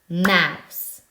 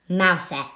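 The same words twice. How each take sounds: First: The word ends on the s with no vowel. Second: A final vowel sound is added after the s. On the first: The speaker calls it right. "We don't actually say the e at the end" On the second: The speaker calls it wrong. "Is that a real word, mouse? No, it's not"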